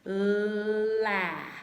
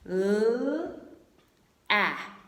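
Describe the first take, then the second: First: The two sounds glide together quickly into one. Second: The two sounds are said separately with a break. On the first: "we say it a little bit faster and we kind of slide them together" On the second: "So say each sound L, ah"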